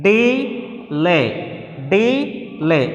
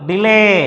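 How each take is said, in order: First: "delay" split into two slow, separate syllables; teacher sounding out "delay" in two pieces. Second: Said in the usual way. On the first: Shown as a demonstration. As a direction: stretch both halves of "delay", pausing between. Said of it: "In that we have two syllables". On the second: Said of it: "First syllable and".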